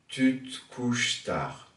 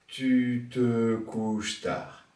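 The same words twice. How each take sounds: First: The phrase is spoken with three syllables. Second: The phrase is spoken with four syllables. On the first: "Trois syllabes" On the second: "Quatre syllabes"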